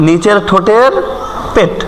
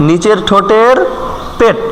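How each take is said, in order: Both takes have the same delivery.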